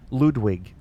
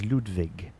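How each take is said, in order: First: "Ludwig" with a W, as in wig; "Ludwig" ending like English "wig". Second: "Ludwig" with a V for the W; "Ludwig" ending in "vig" rather than "wig"; German-style V. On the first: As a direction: say "Ludwig" with "wig" as its second syllable. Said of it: "you know, a wig". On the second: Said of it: "I used to think it was". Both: Shown as a demonstration.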